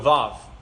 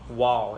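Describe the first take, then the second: First: The word begins with a V sound. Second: The word begins with a W sound. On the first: This is the usual way to say it. "it typically will make a V sound" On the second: This is how some communities say it. "It's more of a W sound"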